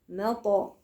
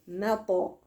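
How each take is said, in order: The two takes are said the same way.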